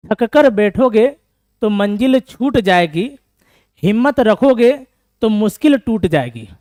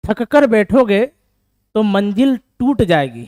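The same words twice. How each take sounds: First: Loud, slow declaiming with the fixed word छूट; slow, loud recital, now saying छूट जाएगी; corrected couplet recital. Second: Loud, slow recital of a motivational line; reciting a couplet. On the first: Teacher re-recites the corrected couplet to the class, loud and slow. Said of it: "sorry, छूट जाएगी ना". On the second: Teacher declaims a motivational couplet to tired students, loud and slow. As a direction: declaim it slowly and loudly to the class. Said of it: "उस बात पे एक line है ना". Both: Shown as a demonstration.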